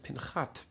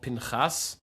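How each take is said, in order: First: The word ends with a t sound. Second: The word ends with an s sound. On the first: The speaker calls it wrong. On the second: The speaker calls it right. "the Torah portion is called Pinchas"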